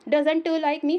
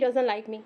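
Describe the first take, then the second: First: The t at the end of doesn't is pronounced. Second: The t at the end of doesn't is dropped. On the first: The speaker calls it wrong. "हम कभी नहीं बोलते" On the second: The speaker calls it right. "हम टी को अगर silent करते हैं तो ज़्यादा अच्छा साउंड आता है"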